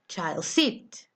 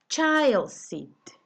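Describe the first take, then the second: First: The stress is on the word seat. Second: The stress is on the word child. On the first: The speaker calls it wrong. "You don't say child seat" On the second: The speaker calls it right. "you say child seat"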